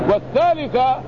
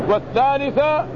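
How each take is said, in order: Both takes have the same delivery.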